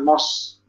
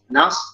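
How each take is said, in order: First: The vowel is heavy and rounded, like 'o'. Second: The vowel is light and thin, like 'a'. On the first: The speaker calls it wrong. "jangan nos" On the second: The speaker calls it right. "Beda tipis"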